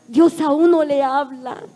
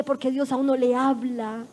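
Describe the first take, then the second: First: "Dios a uno le habla" louder and slower, each word weighed; emphatic repeat. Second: Said in the usual way. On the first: Shown as a demonstration. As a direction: drive home "Dios a uno le habla" slowly, loud.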